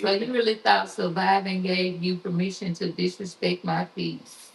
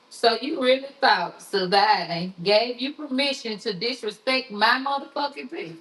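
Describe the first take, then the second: First: It is read plainly, without force. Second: It is said forcefully, with confrontational attitude.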